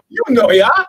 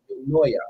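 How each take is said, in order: First: The first syllable sounds like 'you'. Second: The first syllable sounds like 'yo'. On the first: The speaker calls it right. "Ah, you" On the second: The speaker calls it wrong. "I'm going to go with Yo, Noya"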